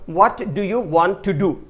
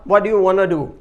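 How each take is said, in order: First: Every word is said fully and separately. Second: The words are reduced and run together. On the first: "इसको कहने की जगह" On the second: "क्या होगा ... इस तरह।"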